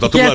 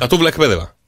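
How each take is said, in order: First: The phrase is said quickly, run together. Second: The phrase is said at a normal pace.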